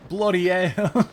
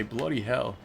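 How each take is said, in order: First: "Bloody hell" shouted high and slow, mock Australian with "hell" said without its H, like "ell"; "Bloody hell" yelled with the H dropped, "bloody ell". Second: "bloody hell" said plainly with a clear H at the start of "hell"; correcting: "bloody hell" with the H sounded; H pronounced. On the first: Streamer shouting a mock Australian "Bloody hell" with "hell" said as "ell", H dropped. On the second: Shown as a demonstration. Streamer correcting the pronunciation to chat, "bloody hell" with a clear H. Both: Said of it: "you guys pronounce the H".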